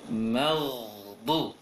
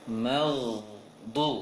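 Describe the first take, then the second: Both takes have the same delivery.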